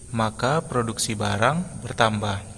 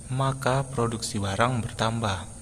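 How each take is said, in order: Both takes have the same delivery.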